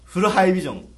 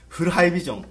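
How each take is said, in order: First: Louder punchy ad slogan; CM catchphrase voice. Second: Punchy ad slogan; CM catchphrase voice. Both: Retold or imitated. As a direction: sell it like a TV ad. CM parody catchphrase.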